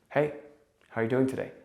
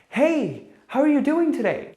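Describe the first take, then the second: First: The greeting sounds relaxed and confident. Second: The greeting sounds needy and grasping. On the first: The speaker wants to give something to the listener. The speaker calls it right. "if I felt comfortable and good in myself and I only had value to give" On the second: The speaker wants to take something from the listener. The speaker calls it wrong. "from a place of neediness, the intent of I want to take something"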